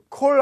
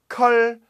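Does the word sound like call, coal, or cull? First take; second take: coal; cull. First: The vowel is a rounded 'oh' sound. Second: The vowel is a short 'uh' sound. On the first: It means coal. "콜 아니요. 그건 석탄" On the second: It means killing chickens. "컬 말고요. 컬는 닭 죽이는 거"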